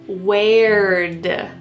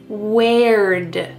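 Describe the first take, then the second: No difference in how they are said.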